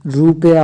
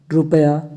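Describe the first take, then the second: First: रुपया with a long "roo". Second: रुपया with a quick "ru"; short u. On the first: Teacher giving her form, long oo in रुपया. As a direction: stretch रुपया into "roopaya". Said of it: "होता है". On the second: Teacher showing the short u in रुपया. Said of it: "रुपया होता है". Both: Shown as a demonstration.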